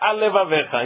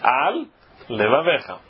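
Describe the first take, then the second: First: Said fast, the two l sounds merge into one. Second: A short pause keeps both l sounds separate. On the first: The speaker calls it wrong. "Se ele falar rápido, fica al levaveja, engoliu um lamed" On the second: The speaker calls it right. "fazer uma pequena pausa para ter os dois lamed"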